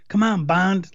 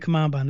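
First: It is said urgently, rooting him on. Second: It is said flatly, as a casual remark.

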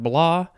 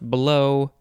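First: The vowel sounds like 'aw'. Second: The vowel sounds like 'oh'. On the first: "I would want to pronounce that blaw" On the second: "but it might be pronounced blow"

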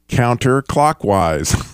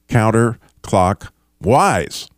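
First: It is said at normal speed. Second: It is said slowly.

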